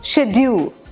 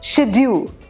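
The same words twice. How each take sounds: First: It is said with a British pronunciation. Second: The same.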